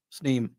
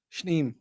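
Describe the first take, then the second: First: Sneem with a clean s, no sh; corrected town name. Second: Shneem with a sh sound at the start; mispronounced town name. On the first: Host correcting himself on air, Sneem with a clean s. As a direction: say Sneem, plain s then n. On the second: Host stumbling over the town name, Shneem with sh. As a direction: say Shneem, sh before the n. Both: Shown as a demonstration.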